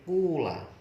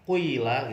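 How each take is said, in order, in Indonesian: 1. Vokal pertama adalah bunyi u yang jelas. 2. Vokal pertama berada di antara u dan i. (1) "huruf awalnya dibaca dhammah" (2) "ada kayak dhammahnya, ada kasrohnya"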